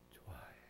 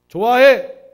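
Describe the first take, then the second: First: It is said in a soft, quiet voice. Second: It is said in a loud, full voice. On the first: It is simply felt. "작게 말하면요" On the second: It shows will and determination. "우리가 크게 하면요"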